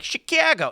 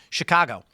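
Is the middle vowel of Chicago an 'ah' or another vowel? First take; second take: other vowel; ah. First: The middle vowel is not an 'ah' sound. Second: The middle vowel is an open 'ah' sound. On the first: This is a parody nobody actually uses. The speaker calls it wrong. "they do the bit where like Chicago. No one ever said Chicago" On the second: This is how locals really say it. The speaker calls it right. "It's it's a ah sound"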